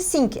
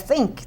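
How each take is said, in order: First: The first sound is made without the tongue between teeth. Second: The first sound is made with the tongue between teeth. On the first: The speaker calls it wrong. "não é nem think nem think" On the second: The speaker calls it right. "é think, tem que interpor"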